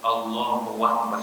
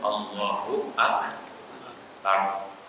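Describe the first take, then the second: First: Akbar is linked to Allahu with a w sound. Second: Akbar begins with a clear glottal stop. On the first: The speaker calls it wrong. "jangan diganti waw, jangan Allahu Akbar salah" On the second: The speaker calls it right. "Harus hamzah"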